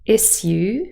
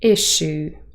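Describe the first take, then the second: First: The middle sounds like 'syu', with separate s and y. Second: The middle sounds like 'sh', s and y merged. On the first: "received pronunciation" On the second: "or with J coalescence"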